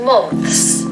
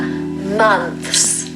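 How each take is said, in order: First: The vowel is an O sound. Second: The vowel is a U sound. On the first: The speaker calls it wrong. "It's not an O, so it's not months" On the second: The speaker calls it right. "It's more like a U sound again, like the umbrella sound"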